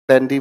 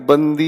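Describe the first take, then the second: First: The first vowel is open, as in 'band'. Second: The first vowel is short, as in 'bun'. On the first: The speaker calls it right. "बैंडी बोलते हैं" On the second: The speaker calls it wrong. "इसे ऐसे मत पढ़ना"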